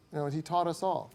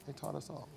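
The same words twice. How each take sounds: First: Said in the usual way. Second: Much softer repeat, almost to himself; soft echo. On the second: Real, not acted. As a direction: let it fall away quietly. Quiet echo of tribute.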